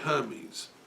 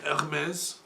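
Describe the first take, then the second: First: The name is pronounced the English way. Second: The name is pronounced the French way. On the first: "in English we say Hermes" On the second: "On dit Hermès en français?"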